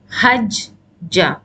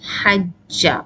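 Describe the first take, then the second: First: A short stop breaks the word between two j's. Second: The j sounds merge into one smooth doubled j. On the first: This is an intermediate form that was disliked. The speaker calls it wrong. "you know stopping in between and then pronouncing" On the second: This is the usual standard form. The speaker calls it right. "they overlapped and they became hajja"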